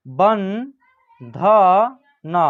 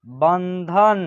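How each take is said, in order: First: बंधन very slowly, syllable by syllable; slow dictation of बंधन; broken into syllables. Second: Said in the usual way. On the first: Shown as a demonstration. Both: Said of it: "तोड़ के पढ़िएगा".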